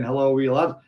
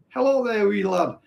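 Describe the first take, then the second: First: Said in the usual way. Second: A mock Scottish greeting, pitched higher; Scottish accent. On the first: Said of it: "why we're getting Yorkshire Koi saying". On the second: Retrying the viewer's greeting in a put-on Scottish accent. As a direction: have a second go at the Scottish accent. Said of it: "Did that sound Scottish?".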